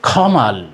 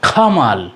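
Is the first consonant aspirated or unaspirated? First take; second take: aspirated; aspirated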